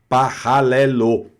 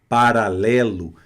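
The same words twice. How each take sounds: First: The R is scraped deep in the throat. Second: The R is tapped with the tongue tip. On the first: This is how a French speaker would read it. "ela vai ler paralelo" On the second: This is the Portuguese way of saying it. "não fala assim nunca"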